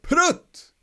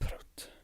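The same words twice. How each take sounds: First: It is called out sharply as an exclamation. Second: It is muttered low and mumbled in annoyance. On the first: An outburst of feeling. "The exclamation would be like prut" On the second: The speaker is annoyed about something. "You can mu- mutter it, mumble it like, oh, prut"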